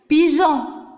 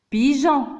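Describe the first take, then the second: The two takes are said the same way.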